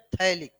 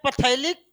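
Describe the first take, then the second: First: The word begins without any p sound. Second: The word begins with an audible p sound. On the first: This is how the word is actually said. "बोलते हैं थैलिक" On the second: This is how the word is written. "लिखते हैं पथैलिक"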